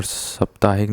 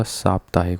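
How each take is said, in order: First: साप्ताहिक with short first vowel, 'saptahik'; wrong form. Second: साप्ताहिक with long first 'saa'; proper साप्ताहिक, lengthened first vowel; correct form. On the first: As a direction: shorten the opening of साप्ताहिक to 'sup'. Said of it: "साप्ताहिक नहीं होता". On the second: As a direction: open साप्ताहिक on a long 'saap'. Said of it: "साप्ताहिक होता है". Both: Shown as a demonstration.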